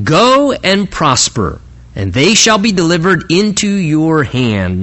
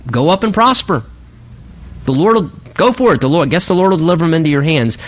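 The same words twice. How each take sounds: First: Emphatic, drawn-out GO AND PROSPER; exclamatory pronouncement. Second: Mocking sarcasm. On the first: Acted. Prophet answers the king's question on war, exclamatory. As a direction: proclaim it with an exclamation point. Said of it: "Notice with the little exclamation point". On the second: Prophet humours the king about battle, mockingly sarcastic. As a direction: send him off with mild sarcasm. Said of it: "some mocking sarcasm in Micaiah's voice".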